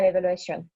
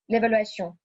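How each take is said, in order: First: The ending has a clearly pronounced n. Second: The ending is a nasal O without an n. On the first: The speaker calls it wrong. "pas l'évaluation. ce n'est pas l'espagnol" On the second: The speaker calls it right. "il ne faut pas prononcer N à la fin de ce mot... c'est le O nasal"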